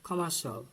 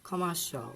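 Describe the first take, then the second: Both takes have the same delivery.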